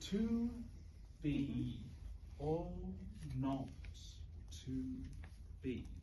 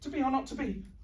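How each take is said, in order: First: It is said very slowly. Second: It is said very fast.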